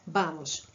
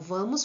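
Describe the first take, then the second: First: The word begins with a B sound. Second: The word begins with a V sound.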